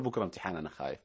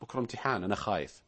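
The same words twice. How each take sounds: First: Low, faint, fearful "أنا خايف"; worried student. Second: Worried student. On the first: Host voicing a frightened student before an exam, low and anxious. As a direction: sound scared of tomorrow's exam. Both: Retold or imitated. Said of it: "لا تقول".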